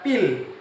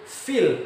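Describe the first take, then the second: First: The word begins with a p sound. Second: The word begins with a breathy f sound. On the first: The speaker calls it wrong. "bukan pil" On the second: The speaker calls it right. "Bi ashabil fil"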